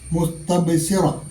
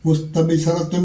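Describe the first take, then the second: First: The word ends on -ra with the ending dropped. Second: The word ends with the full -ratun ending. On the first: This is the form when stopping on the word. "വഖഫ് ചെയ്യുമ്പോൾ" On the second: This is the form when reading on without stopping. "മുസ്തബ്ശിറത്തുൻ എന്നാണ്"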